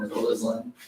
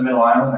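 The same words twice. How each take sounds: First: ISLAND with the s sounded, "iz-land"; joke pronunciation. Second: Said in the usual way. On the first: Shown as a demonstration. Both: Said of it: "I call it Middle Island".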